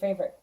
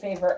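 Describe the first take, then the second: First: The final i is a short, weak vowel. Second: The final i sounds like the word 'eye'. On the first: This is how people say it now. "but now they say favorite" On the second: This is the older way people said it. "it used to be that I think people did say favorite"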